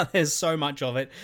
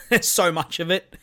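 First: Said in the usual way. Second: Laughing. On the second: Real, not acted. Laughing at how much story there is.

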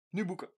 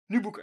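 First: Said in the usual way. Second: "Nu boeken" repeated louder, pushing; louder urging. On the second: Retold or imitated. Urging his friend to cycle off, louder second time. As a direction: press harder on "Nu". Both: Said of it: "en dan zeg ik".

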